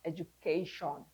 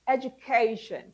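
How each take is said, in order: First: The last syllable is a full 'shawn'. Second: The last syllable is a reduced 'shun'. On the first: The speaker calls it wrong. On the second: The speaker calls it right.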